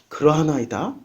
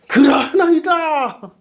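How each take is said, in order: First: It is said in a deflated, subdued tone. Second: It is said in a confident, assertive tone. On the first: The speaker has lost confidence. "조금 이제 풀이 죽었어요" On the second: The speaker claims to love the most. "제가 이 베드로의 뉘앙스를 그대로 살리 그러하나이다. 제가 제일 사랑하나이다"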